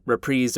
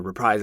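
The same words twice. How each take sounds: First: "reprise" said ree-PREEZ; second syllable of "reprise" like "preez". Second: "reprise" said ree-PRIZE; second syllable of "reprise" like "prize". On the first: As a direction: say "reprise" to rhyme with breeze. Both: Shown as a demonstration. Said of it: "is it reprise or reprise".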